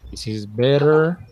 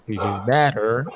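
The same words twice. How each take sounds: First: "better" with a clear short e; better, said right. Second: "better" with the vowel pushed toward butter. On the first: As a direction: say "better" as bet-ter, open e. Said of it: "let me do this". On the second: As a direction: say "better" with an a-like vowel, almost "batter". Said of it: "And this is butter". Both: Shown as a demonstration.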